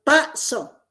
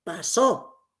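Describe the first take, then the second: First: "paso" with PA punched, SO falling; acento en la primera sílaba. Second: "pasó" with the final SÓ stressed; acento en la última sílaba. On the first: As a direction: stress the first syllable of "paso". ("paso" con la primera sílaba acentuada) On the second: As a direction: land on the last syllable of "pasó". ("pasó" con la última sílaba acentuada) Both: Shown as a demonstration. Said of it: "Si cambiáramos a la primera sílaba".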